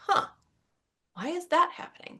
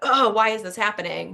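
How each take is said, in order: First: It sounds curious and interested. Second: It sounds frustrated and self-critical.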